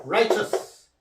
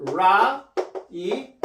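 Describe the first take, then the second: First: Said in the usual way. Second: "Righteous" drawn out in separate sounds, ra, i, chus; teacher sounding out "Righteous" piece by piece; syllable-by-syllable demo. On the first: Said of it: "Righteous라고 발음해요". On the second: Shown as a demonstration. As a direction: break "Righteous" slowly into its sounds with gaps. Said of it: "righteous라고 발음해요".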